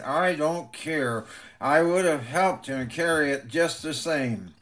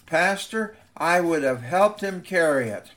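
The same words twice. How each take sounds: First: Grit it out through clenched teeth; through gritted teeth. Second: Put-on determined boy. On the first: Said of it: "he gritted through clenched teeth". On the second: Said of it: "with determination in his eyes". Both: A narrator's reading.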